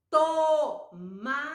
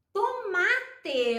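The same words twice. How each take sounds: First: Tomate in three long, separate syllables. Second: Said in the usual way. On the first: Shown as a demonstration. Teacher showing a word with to, syllable by syllable. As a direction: sound out Tomate slowly, to, ma, te. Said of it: "Olha só". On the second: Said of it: "eu posso escrever".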